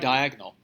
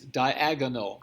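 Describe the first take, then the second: First: The word is said with three syllables. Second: The word is said with four syllables. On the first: The speaker calls it wrong. "Most people say diagonal" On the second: The speaker calls it right. "It's four syllables"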